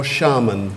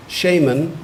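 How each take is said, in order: First: Shaman said SHAH-mun; second pronunciation. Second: Shaman said SHAY-mun; first pronunciation. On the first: Pronouncer offers a speller the other option, shaman as SHAH-mun. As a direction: say shaman with an open "ah" in the first syllable. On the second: Pronouncer offers a speller the first option, shaman as SHAY-mun. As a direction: say shaman with a long "ay" in the first syllable. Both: Shown as a demonstration. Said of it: "you've got two pronunciations".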